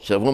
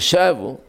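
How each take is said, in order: First: The stress is on the last syllable. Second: The stress is on the first syllable. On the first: It means taking captives. "שבו מלרע, שבו לשון שביעה" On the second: It means they returned. "לפעמים שבו, חזרו"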